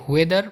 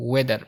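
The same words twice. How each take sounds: First: "ওয়েদার" begun with HW, like "hwe-"; H sounded. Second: "ওয়েদার" begun on a pure W, no H; silent H. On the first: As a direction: put an audible H before the W in "ওয়েদার". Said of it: "এখানে এইচ উচ্চারিত হয়". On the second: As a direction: drop the H and start "ওয়েদার" with W. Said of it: "সবসময় silent থাকে". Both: Shown as a demonstration.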